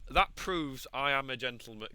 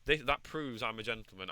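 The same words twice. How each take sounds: First: "that proves I am a gentleman" slow, loud, each word weighted; emphatic self-justification. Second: Said in the usual way. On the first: Acted. Falcon defending himself, "that proves I am a gentleman" slow and emphatic. Insisting on his good character.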